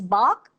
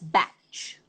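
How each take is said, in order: First: The name ends in a k sound. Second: The name ends in a ch sound. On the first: "there are people who pronounce it as Bach, like I do" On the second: "there are people who pronounce it as batch"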